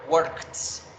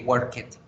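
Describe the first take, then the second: First: The ending is a plain t sound. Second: The ending is an extra syllable, like "it". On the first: The speaker calls it right. "Cuándo debe pronunciarse the, cuándo t" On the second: The speaker calls it wrong. "como pronunciamos al principio cuando aprendemos"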